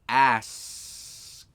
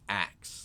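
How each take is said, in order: First: The s sound comes before the k. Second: The k sound comes before the s. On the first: The speaker calls it right. "they can't pronounce the S" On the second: The speaker calls it wrong. "They say axe"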